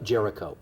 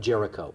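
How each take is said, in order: First: The name is said in an English pronunciation. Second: The same.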